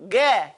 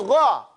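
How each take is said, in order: First: "Gah" with a hard g and thin eh vowel; wrong pronunciation. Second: "Gha" with throaty gh and rounded open vowel; back-of-throat "Gha", like a gargle; correct gha sound. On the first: Teacher shows what it doesn't do, mispronounced "Gah". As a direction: say "Gah" like "geh". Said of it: "It doesn't go Gah". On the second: Teacher shows how it goes, throaty "Gha". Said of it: "It goes Gha". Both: Shown as a demonstration.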